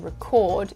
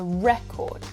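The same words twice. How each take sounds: First: The stress is on the second syllable. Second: The stress is on the first syllable. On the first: It is a verb meaning to make a copy of sounds or images. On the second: It is a noun.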